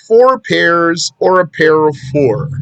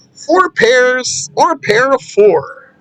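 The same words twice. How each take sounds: First: Said in the usual way. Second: FOUR PAIRS and PAIR OF FOUR slow and high-pitched; emphatic repetition. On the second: Real, not acted. Teacher repeats the wording for emphasis.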